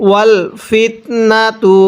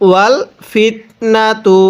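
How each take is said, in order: The two takes are said the same way.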